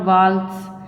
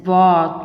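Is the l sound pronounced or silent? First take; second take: pronounced; silent. First: The l sound is pronounced. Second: The l sound is silent. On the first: The speaker calls it wrong. "not waltz ... L is silent here" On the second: The speaker calls it right. "And it is walk"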